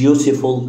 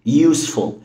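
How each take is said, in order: First: An extra vowel is sounded in the middle. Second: No extra vowel is sounded in the middle. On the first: The speaker calls it wrong. "هي مش useful" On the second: The speaker calls it right. "الاي هنا ما بتتنطقش"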